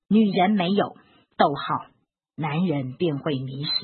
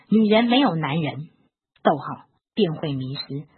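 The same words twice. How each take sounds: First: 在“没有”后停顿，前半句加重; pause after 没有. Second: 在“男人”后停顿，前半句加重; pause after 男人. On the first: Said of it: "假如我的重读部位是这样子哦". (在“没有”处断开重读) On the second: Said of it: "但是如果我是这样子". (在“男人”处断开重读) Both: Shown as a demonstration.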